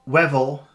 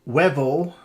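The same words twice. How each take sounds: No difference in how they are said.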